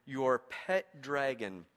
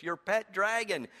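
First: "your pet dragon" drawn out slow and low; savoured slowly. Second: Delighted repeat. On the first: Preacher savouring the Message translation, slow and low. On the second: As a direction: relish "Your pet dragon" with glee. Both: Shown as a demonstration. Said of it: "I love the way that Eugene Peterson says this".

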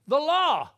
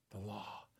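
First: "The law" shouted high and loud. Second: "The law" said softly and low; quiet. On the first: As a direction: hammer out "The law". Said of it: "what was enchanting us". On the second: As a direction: drop "The law" to a hush. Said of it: "contrast law and grace". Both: Shown as a demonstration.

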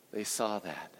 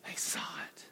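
First: Said in the usual way. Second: Breathy whispered repeat. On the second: Shown as a demonstration. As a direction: whisper it like a secret.

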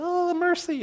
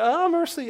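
First: Much higher, yelped mercy; a kid giving up in pain; whiny child. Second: Much higher, louder yelp of mercy; a squealing schoolboy giving up; whiny child. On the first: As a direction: squeal it like a hurt schoolboy. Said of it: "the weak one would be like". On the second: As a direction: cry out like a beaten kid. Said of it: "you just go". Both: Retold or imitated.

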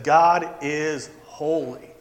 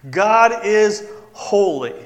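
First: Slow, hushed awe; quiet reverent. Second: Slow, louder proclamation; slow emphatic repeat; emphatic declaration. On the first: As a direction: say it slowly in reverence. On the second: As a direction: declare it with weight. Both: Pretend. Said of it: "Isaiah would have used that word".

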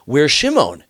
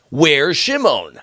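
First: High, alarmed question from the father; a father suddenly missing his son, pitched high. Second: Drawn out, anxious and high; slow, worried repeat. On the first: Father asking his sons where Shimon is, alarmed. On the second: Father pressing his sons about Shimon, slow and anxious. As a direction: stretch each word, the worry sinking in. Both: Acted.

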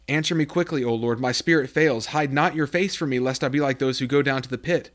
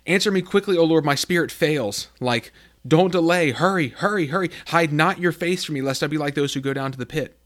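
First: Said in the usual way. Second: Higher, louder urgent begging; frantic prayer for help, hurry hurry; desperate plea. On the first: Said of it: "this is the voice of someone who's crying out". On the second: Acted. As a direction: cry out to God like you're drowning. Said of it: "you feel like".

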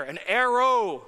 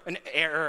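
First: Arrow landed with a short a, ar-row, a bit louder; arrow punchline. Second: Error with a plain open e, ehr-er; error said plainly. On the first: Preacher landing his straight-as-an-arrow pun, slightly louder. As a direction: land arrow as the pun's payoff. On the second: Preacher setting up his straight-as-an-arrow pun, plainly. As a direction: say error as the ordinary word. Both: Shown as a demonstration. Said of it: "straight S".

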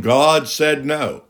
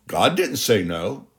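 First: Slow, dismissive "God said no"; mock quote. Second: Said in the usual way. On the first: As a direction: drag out "God said no" as the wrong teaching. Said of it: "I've heard people saying".

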